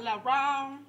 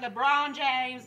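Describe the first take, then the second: First: "LeBron" said with a quick light first syllable, "li-RON"; own pronunciation of the name. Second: Said in the usual way. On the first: Shown as a demonstration. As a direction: give "LeBron" her own twist, not the star's name. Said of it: "Like LeBron James". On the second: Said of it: "but LeBron".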